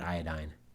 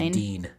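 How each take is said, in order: First: The last syllable rhymes with 'sign', not chlorine. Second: The last syllable rhymes with 'seen', like chlorine. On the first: The speaker calls it wrong. "not iodine" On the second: The speaker calls it right. "It would actually be iodine"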